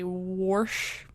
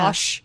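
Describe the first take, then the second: First: The word is said with an R sound. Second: The word is said without an R sound. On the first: This is how some Midwest family members say it. The speaker calls it wrong. "they would say wash" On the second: This is the usual way to say it. The speaker calls it right. "instead of wash"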